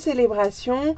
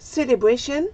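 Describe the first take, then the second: First: The word is said with a French accent. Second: The word is said with an English accent.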